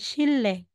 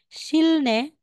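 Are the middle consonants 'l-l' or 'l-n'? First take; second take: l-l; l-n. First: The middle consonants are said as l and l. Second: The middle consonants are said as l and n. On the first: The speaker calls it right. "magiging sille" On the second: The speaker calls it wrong. "So instead na sasabihin mong silne"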